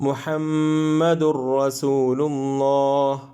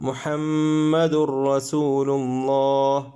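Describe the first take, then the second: No difference in how they are said.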